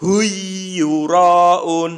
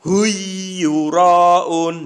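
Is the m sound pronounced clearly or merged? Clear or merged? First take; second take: merged; merged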